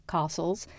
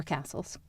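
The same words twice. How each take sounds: First: "castles" with a long British ah; British pronunciation. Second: Said in the usual way. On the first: Shown as a demonstration. Correcting the word for the play, British "castles" with broad ah. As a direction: say "castles" as KAH-sulz, softly. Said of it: "did a British accent".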